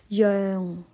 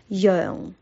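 Both takes have the same delivery.

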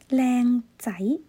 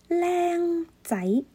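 First: The first syllable has a lower tone. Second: The first syllable has a higher tone.

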